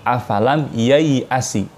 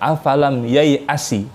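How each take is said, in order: Both takes have the same delivery.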